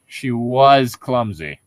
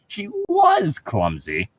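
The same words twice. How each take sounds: First: "was" stretched and weighted, slow; stress on was. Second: "was" lifted high and drawn out, slow; stress on was, rising. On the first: Reading a novel line aloud, stressing "was". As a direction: lean hard on "was" in "She was clumsy". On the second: Showing a friend the other reading, rising on "was". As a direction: rise on "was" as if she no longer is. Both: Shown as a demonstration. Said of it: "your emphasis is on the word was".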